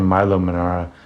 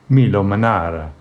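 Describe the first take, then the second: First: The name is pronounced in an English way. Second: The name is pronounced in an Italian way. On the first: The speaker calls it wrong. "I was saying Milo Manara" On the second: The speaker calls it right. "I should use the Italian pronunciation"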